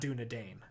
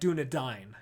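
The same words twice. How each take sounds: First: The last vowel sounds like the one in 'day'. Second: The last vowel sounds like the one in 'die'. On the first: The speaker calls it wrong. "It's not Dunedain" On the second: The speaker calls it right. "it's actually Dine, right? Like Dunedain"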